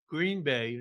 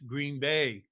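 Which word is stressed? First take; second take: Green; Bay. First: The stress falls on the word Green. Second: The stress falls on the word Bay.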